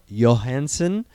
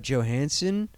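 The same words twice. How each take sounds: First: Johansson said with a Y, as Yo-hansson; Y pronunciation. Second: Johansson said with an English J, as Jo-hansson; J pronunciation. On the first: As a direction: say Johansson starting like "Yo". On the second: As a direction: say Johansson starting like "Joe". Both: Shown as a demonstration. Offers two pronunciations of surname.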